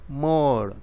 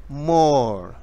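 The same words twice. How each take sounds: Both takes have the same delivery.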